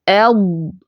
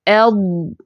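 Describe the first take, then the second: First: The final consonant is held firmly and sustained. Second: The final consonant is held firmly and sustained.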